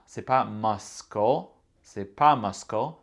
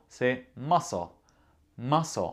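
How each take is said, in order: First: Muscle said masko, C sounded, the wrong way; wrong pronunciation. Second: Muscle said massle, C silent; right pronunciation. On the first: Teacher shows the wrong muscle with a K. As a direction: say muscle with a hard K. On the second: Teacher gives the correct muscle, no K. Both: Shown as a demonstration. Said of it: "on ne prononce pas le C".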